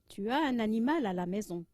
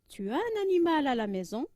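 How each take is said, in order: First: The voice falls at the end. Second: The voice rises at the end.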